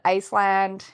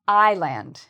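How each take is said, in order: First: An S sound is heard in the middle. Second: No S sound is heard in the middle. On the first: The speaker calls it wrong. "what do some students say by mistake? ... they pronounce the S" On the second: The speaker calls it right. "if we remove the S, the pronunciation is more like island"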